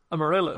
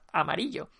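First: It is said with an American English accent. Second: It is said with a Spanish accent.

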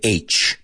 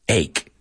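First: The word is said like the letter name aitch. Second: The word is said like ake, ending in k. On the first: The speaker calls it wrong. "I've heard a lot of people mispronounce this word and say H" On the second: The speaker calls it right. "apúntalo en tus apuntes como E-I-K"

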